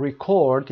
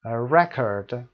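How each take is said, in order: First: "ریکورد" stressed on CORD; second-syllable stress. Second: "رکورد" stressed on REC; first-syllable stress. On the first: Teacher explaining the verb to students, "ریکورد" stressed on CORD. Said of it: "یعنی ضبط کردن". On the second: Teacher explaining the noun to students, "رکورد" stressed on REC. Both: Shown as a demonstration.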